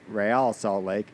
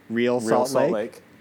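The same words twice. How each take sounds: First: Real is said the Spanish way, like ray-AL. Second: Real is said like the English word real. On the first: The speaker calls it right. "when pronounced correctly" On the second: The speaker calls it wrong. "Mildly absurd when mispronounced"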